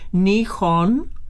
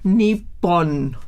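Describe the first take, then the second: First: The middle consonant is a breathy h sound. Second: The middle has no breathy h sound.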